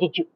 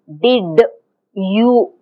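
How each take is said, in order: First: The d and y merge into a j sound. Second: The d and y are kept as separate sounds. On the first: The speaker calls it right. "This is a j" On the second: The speaker calls it wrong. "we don't say did you. We don't speak like that"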